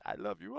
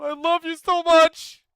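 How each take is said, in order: First: Said in the usual way. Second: Much higher and louder, overflowing; swooning, over-the-top declaration; gushing love shout. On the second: Acted. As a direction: belt it out like a devoted fan. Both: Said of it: "so I will say it".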